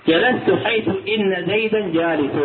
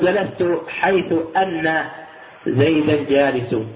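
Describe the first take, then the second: First: The particle is said with an i vowel, inna. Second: The particle is said with an a vowel, anna. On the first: The speaker calls it right. "فإن هنا حرف توكيد وجاءت مكسورة" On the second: The speaker calls it wrong. "ولا تقل"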